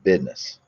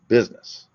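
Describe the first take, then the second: First: It is said in a Southern Alabama accent. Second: It is said in a standard accent.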